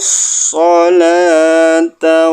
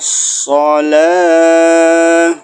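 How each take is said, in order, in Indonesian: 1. Kata ini berakhir dengan suku kata ta yang penuh. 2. Kata ini berakhir dengan bunyi h yang lembut. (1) "Lalu kita ulang lagi dari sini" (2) "Jika kita berhenti di sini, sholata jadi shalah"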